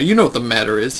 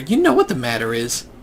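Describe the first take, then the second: First: It is said in a deep, threatening voice. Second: It is said in an ordinary, unthreatening voice. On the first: The speaker calls it right. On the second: The speaker calls it wrong.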